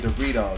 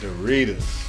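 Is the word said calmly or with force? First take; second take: calmly; with force. First: The word is said calmly, without extra force. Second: The word is said loudly, with strong force. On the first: "I don't say Doritos" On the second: "I say stuff with so much force"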